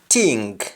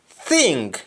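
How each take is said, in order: First: The word starts with a t sound. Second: The word starts with a th sound. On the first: "instead of th, they use t or d" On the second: "Under English"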